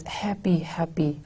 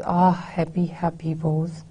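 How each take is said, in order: First: Breathy whisper, softer and falling away; whispered happy. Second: Pained soft reading. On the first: Teacher showing Keats's longing to the class, in a whisper. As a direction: let the word happy fade into a pained whisper. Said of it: "he plays emphasis on these, on the word happy". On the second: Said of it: "the feeling of pain with which he says it". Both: Shown as a demonstration.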